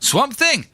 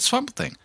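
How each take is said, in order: First: It is said in an attempted South African accent. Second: It is said in the speaker's own normal accent. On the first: "I can't do the accent" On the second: "I'll just say it in my own voice"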